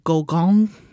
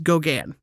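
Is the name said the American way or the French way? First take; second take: French; American. First: The name is said with a French pronunciation. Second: The name is said with an American pronunciation. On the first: "he's French, and so it would be more like" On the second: "I'm going to say it the American way"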